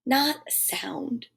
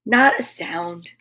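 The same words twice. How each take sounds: First: Slow breathy whisper; soft whispered refrain of silence. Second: Low and slow. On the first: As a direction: let it fade into a whisper. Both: Acted.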